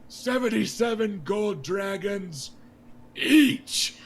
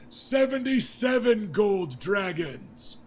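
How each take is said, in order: First: High, loud, with a huge shout on each; defiant shout. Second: High, loud and slowed royal announcement; King Robert announcing. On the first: King Robert glaring at Jon Arryn, shouting defiantly. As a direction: hurl it at the Hand to spite him. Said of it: "He goes". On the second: King Robert naming the melee prize to the crowd, loud and slow. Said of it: "And then he goes". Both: Acted.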